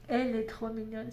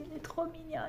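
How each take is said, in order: First: Said in the usual way. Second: High, soft gushing over something cute. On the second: Real, not acted. Crafter cooing over her new cute pattern, high and soft. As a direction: coo over how adorable it is.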